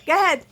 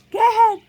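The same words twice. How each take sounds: First: Said in the usual way. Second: Excited cheer. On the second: Real, not acted.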